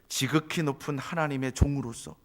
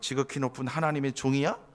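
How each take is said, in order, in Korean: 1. 존중하고 진심 어린 말투로 말합니다. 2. 비웃고 빈정거리는 말투로 말합니다. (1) "이건 존경의 마음으로 이렇게 했으면 기분 좋겠죠" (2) "목소리를 변화시키면서 태도를 내리면서 깎아내리는 듯하게 그렇게 비아냥거리면서"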